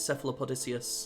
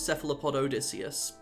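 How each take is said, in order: First: The name ends with a blended '-odicius'. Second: The name ends with a full 'Odysseus'. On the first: The speaker calls it right. "no, it's cephalopodicius. I was corrected" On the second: The speaker calls it wrong. "I thought it was cephalopod Odysseus"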